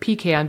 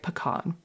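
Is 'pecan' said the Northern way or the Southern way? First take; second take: Northern; Southern. First: It is said the Northern way, like 'pea can'. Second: It is said the Southern way, not like 'pea can'. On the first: The speaker calls it wrong. "I grew up in the North saying pecan... I think of a can full of pea" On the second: The speaker calls it right. "it sounds beautiful and eloquent and Southern and charming"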